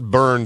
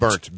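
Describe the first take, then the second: First: The word ends with a d sound. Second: The word ends with a t sound. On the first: The speaker calls it wrong. "it's not burned weapon" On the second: The speaker calls it right. "B U R N T weapons"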